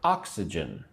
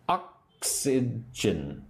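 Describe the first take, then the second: First: Said in the usual way. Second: "Oxygen" very slowly, split into three separate syllables; teacher sounding out "Oxygen" slowly, piece by piece. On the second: Shown as a demonstration. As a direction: break "Oxygen" into ox, y, gen with gaps between. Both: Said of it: "say the word with me".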